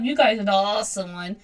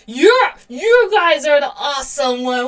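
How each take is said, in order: First: Said in the usual way. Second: Excited. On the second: Real, not acted. Gushing back at her viewers.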